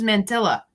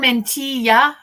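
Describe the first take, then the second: First: The double L is said as an L sound. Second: The double L is said as a Y sound. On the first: The speaker calls it wrong. "I thought it was mantilla" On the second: The speaker calls it right. "there is a double L does make the E sound"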